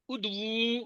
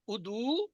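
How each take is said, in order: First: ادعو with a long final "uu"; soft ادعو, ending drawn out; plural imperative ادعو. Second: ادعو with a short final "u"; soft, short-ended ادعو; singular imperative ادعو. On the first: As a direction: hold the last u of ادعو. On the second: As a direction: end ادعو on a brief rising u. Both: Shown as a demonstration. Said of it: "پکار، ادعو پکارو".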